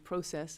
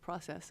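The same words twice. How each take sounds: First: The word is said with a Canadian pronunciation. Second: The word is said with an American pronunciation. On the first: "still having the Canadian sensibilities and still saying process" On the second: "instead of process"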